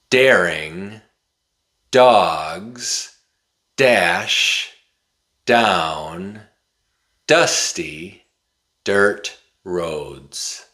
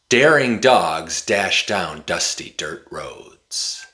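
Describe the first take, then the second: First: It is said at a moderate, quicker speed. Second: It is said very quickly without breaks. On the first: "a little bit faster" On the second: "really fast"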